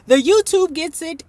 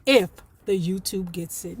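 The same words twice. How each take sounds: First: YouTube lifted and louder; stress on YouTube. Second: If hit, the rest dropped lower; stress on if. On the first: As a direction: lean on YouTube. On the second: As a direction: sly stress on if. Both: Shown as a demonstration.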